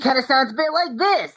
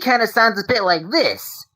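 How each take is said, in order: First: The put-on voice is higher in pitch. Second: The put-on voice is lower in pitch. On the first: "a bit more higher pitch" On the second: "movie kind of sounds a bit like this"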